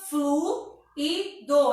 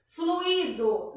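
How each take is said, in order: First: Fluido broken into flu, i, do; syllable by syllable. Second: Said in the usual way. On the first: Shown as a demonstration. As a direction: say fluido slowly in three separate beats. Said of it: "Então, fica fluido". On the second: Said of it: "a gente fala separado do u".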